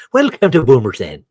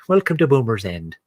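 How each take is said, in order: First: Loud, higher, hammed-up Irish lilt; mock Irish accent. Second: Hammed-up English village welcome; attempted English accent. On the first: Villager greeting visitors to Boomers End, mock Irish accent. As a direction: belt out the welcome as a stage Irish villager. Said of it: "Now I'm in Ireland". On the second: Villager greeting visitors to Boomers End, attempted English accent. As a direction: try an English accent, not quite landing it. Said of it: "I'm supposed to be in England".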